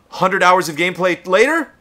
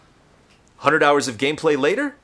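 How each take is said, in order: First: It is read with intense, heightened energy. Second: It is read with the same tune, less intensely. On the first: "I would never read it that way if I was in the booth" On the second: "It would be the same inflection but less intense"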